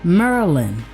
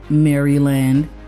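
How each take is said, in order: First: It is said with the local Maryland accent. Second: It is said without the local Maryland accent.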